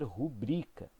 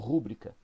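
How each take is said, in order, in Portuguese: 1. A sílaba tônica está na segunda sílaba. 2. A sílaba tônica está na primeira sílaba. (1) "coloca a sílaba tônica no bri, né? Na segunda sílaba" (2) "também é um deslocamento"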